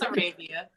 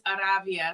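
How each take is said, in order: First: The name is pronounced the English way. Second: The name is pronounced the Spanish way. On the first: This is how she says her own name. "But yeah, it's" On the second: This is how the name is said in Spanish. "So in Spanish it is"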